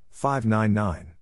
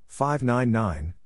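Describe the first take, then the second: No difference in how they are said.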